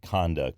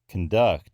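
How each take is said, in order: First: The stress is on the first syllable. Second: The stress is on the second syllable. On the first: It names a type of behavior. "initial stress derived nouns" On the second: It means to lead. "that's the verb form"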